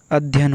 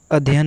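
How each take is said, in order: First: अध्ययन with a held dh; अध्ययन leaning on a doubled dh; correct pronunciation. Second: अध्ययन with a light single dh; अध्ययन without leaning on the dh; wrong pronunciation. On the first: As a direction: say अध्ययन as "add-hyan". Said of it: "अध्ययन होता है". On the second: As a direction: say अध्ययन as "a-dhyan". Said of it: "अध्ययन नहीं". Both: Shown as a demonstration.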